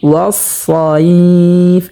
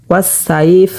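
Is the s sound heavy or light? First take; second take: heavy; light. First: The s sound is heavy and thick. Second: The s sound is light and thin. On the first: The speaker calls it right. "আমরা মোটা করিয়া উচ্চারণ করব" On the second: The speaker calls it wrong. "তাহলে সিন উচ্চারণ হয়ে যাবে"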